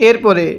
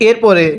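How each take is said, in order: No difference in how they are said.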